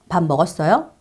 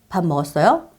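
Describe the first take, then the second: The two takes are said the same way.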